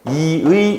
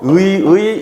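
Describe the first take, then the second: First: The first syllable has i, the second has ui. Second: Both syllables are said with the vowel ui. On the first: "이로 발음하는 거를 모두 허용하는" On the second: "의라고 발음해도 되고"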